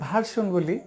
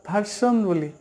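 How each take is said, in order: The two takes are said the same way.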